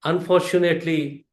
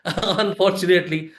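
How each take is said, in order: First: Said in the usual way. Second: Said through a short laugh; laughing at his own admission. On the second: Real, not acted. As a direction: chuckle the word out ruefully. Rueful repeat after audience laugh.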